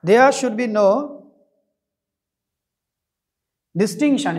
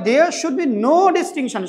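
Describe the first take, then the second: First: Slow dictation. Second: Said in the usual way. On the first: Shown as a demonstration. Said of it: "distinction মানে কি?". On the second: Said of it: "তার মানে".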